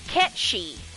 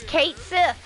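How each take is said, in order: First: The name is said as one word, 'Ketchy'. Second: The name is said as two words, 'Kate Sith'. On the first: The name follows its Scottish origin. "it's Ketchi because it's Scottish" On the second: The name is read as it is spelled. "I have been referring to the cat on the giant Moogle as Kate Sith"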